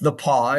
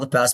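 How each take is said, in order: First: The name is said with French pronunciation. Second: The name is said like English 'pass'. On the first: This is the name's proper French form. The speaker calls it right. "It's a French name" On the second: This is how others commonly say it. The speaker calls it wrong. "they call it the pass"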